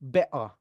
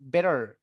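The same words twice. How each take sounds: First: The t is replaced by a glottal stop. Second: The t is a soft d-like flap. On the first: "Mau lebih British lagi, diglotalkan aja" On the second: "T-nya diganti D aja ... ini bakal kedengaran American"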